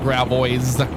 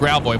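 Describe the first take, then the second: First: It is said with an outsider's pronunciation. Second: It is said with the local pronunciation. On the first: This is how people unfamiliar with the name say it. The speaker calls it wrong. "a lot of people that don't know how to pronounce it correctly call it Gravois" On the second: This is how locals say the name. The speaker calls it right. "we pronounce it Gravois"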